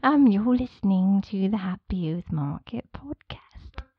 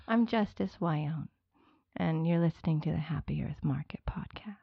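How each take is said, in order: First: Slow, lightly voiced fairy; a hint of a dreamy fairy; tiny tinkling fairy voice. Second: Whispered intro. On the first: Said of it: "another one with the fairy voice". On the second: Shown as a demonstration. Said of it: "I need you to say your name".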